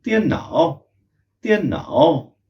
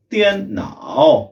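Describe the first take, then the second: First: त्यन नाओ said as one quick joined word; without a pause. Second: त्यन नाओ drawn out very slowly and higher; slow practice. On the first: Teacher shows the word without a pause. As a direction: glide त्यन into नाओ with no break. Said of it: "बिना pause के हमें बोलना है". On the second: Teacher shows the slow practice version. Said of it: "पहले इसको slow बोलने की प्रैक्टिस करें". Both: Shown as a demonstration.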